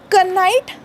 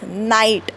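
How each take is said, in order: First: The word starts with a k sound. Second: The word starts with an n sound. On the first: The speaker calls it wrong. "कनाईट नाही" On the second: The speaker calls it right. "That is नाईट"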